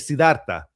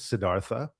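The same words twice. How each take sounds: First: The name is said with a Latin American accent. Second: The name is said with an American accent. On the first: "so they call me Siddhartha, which is probably is my favorite" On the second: "I think the American pronunciation is Siddhartha"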